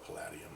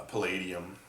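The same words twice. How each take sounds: First: "palladium" said as puh-LAD-ee-um; short A in the middle of "palladium"; alternate pronunciation. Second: "palladium" said as puh-LAY-dee-um; long A in the middle of "palladium"; alternate pronunciation. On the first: Video host offers the other way to say the metal, "palladium" with LAD. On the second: Video host offers one way to say the metal, alternate pronunciation of "palladium" with LAY. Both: Shown as a demonstration. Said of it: "however you wanna pronounce it".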